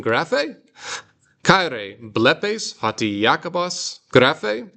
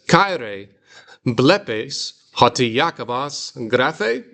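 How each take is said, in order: First: Graphe rising high as a question; question tune. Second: Graphe rising at the end like a question; question tune. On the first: Teacher demonstrating question inflection on graphe. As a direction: end graphe with a big upward lift. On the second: Teacher reading Greek line as a question. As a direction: ask it, lift graphe up. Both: Shown as a demonstration. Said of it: "like I'm asking a question".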